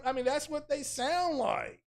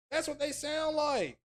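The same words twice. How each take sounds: First: Said in the usual way. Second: Pitched way up, mocking; mocking high voice. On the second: Shown as a demonstration. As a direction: squeak it out to mock them.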